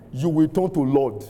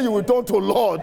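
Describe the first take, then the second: First: Said in the usual way. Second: Higher, insistent proclamation; emphatic re-declaration. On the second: Real, not acted. Preacher repeats a blessing after no amen, emphatic declaration. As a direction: declare it high and forcefully.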